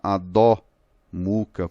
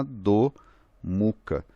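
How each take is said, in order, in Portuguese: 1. A vogal o é falada aberta, como um ó acentuado. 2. A vogal o é falada fechada, não aberta. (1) "não vai ser uma Adho Mukha" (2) "vai ser uma Adho Mukha"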